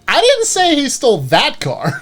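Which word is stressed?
that. The stress is on "that".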